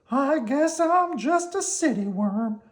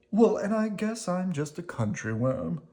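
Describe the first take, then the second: First: High, slow worm voice; Slimy decided. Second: Gently raised worm voice; lightly voiced Squirmy. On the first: Acted. Slimy tells Squirmy he's going home, in a high resigned voice. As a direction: admit it with a shrug. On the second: Squirmy replies to Slimy, in a lightly raised gentle voice. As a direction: answer back kindly.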